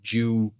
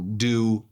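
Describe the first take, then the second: First: The d is palatalized, sounding like 'jew'. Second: The d is plain, without palatalization. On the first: "parece que o ônibus é judeu" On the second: "Eles não fazem essa palatalização"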